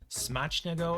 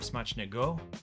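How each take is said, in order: First: The stress is on the first syllable. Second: The stress is on the third syllable. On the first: "Is the emphasis on the first" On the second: "or third syllable"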